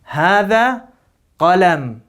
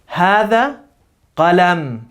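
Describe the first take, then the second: The two takes are said the same way.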